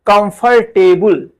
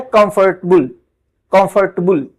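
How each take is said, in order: First: कंफर्टेबल in full four syllables, the common error; wrong version. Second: कंफर्टेबल squeezed to "kumf-tuh-bul"; correct version. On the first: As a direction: show the habitual कंफर्टेबल. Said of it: "हम लोग पढ़ते हैं". (कंफर्टेबल पूरे चार हिस्सों में, गलत ढंग) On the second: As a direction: model कंफर्टेबल with the middle swallowed. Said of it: "ये क्या है". (कंफर्टेबल "कम्फ़-टबल") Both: Shown as a demonstration.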